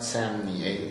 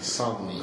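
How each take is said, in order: First: The first syllable does not rhyme with Omni. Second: The first syllable rhymes with Omni. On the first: The speaker calls it wrong. "it's not Samni" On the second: The speaker calls it right. "Som, it rhymes with Omni"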